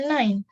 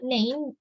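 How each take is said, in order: First: It sounds like the English number nine. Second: It is read letter by letter, Indonesian style. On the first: The speaker calls it right. "cuman kita bacanya nine, like uh, nine number in English" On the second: The speaker calls it wrong. "Di sini tulisannya nein in bahasa"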